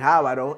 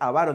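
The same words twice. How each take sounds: First: The stress is on the first syllable. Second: The stress is on the second syllable. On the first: The speaker calls it wrong. "no es esdrújula, no es avaro" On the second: The speaker calls it right. "es avaro"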